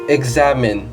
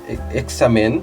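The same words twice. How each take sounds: First: The x is sounded as a voiced gz. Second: The x is sounded as a plain ks. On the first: The speaker calls it right. "but examine, examine. Like uh, there's a G Z there" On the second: The speaker calls it wrong. "We don't say it examine"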